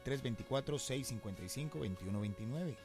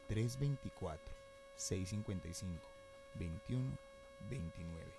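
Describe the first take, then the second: First: The number is read at normal speed. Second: The number is read slowly.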